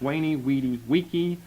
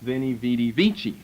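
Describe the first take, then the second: First: Each word begins with a W sound. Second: Each word begins with a V sound. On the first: "but it's" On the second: "In English, to us, it's"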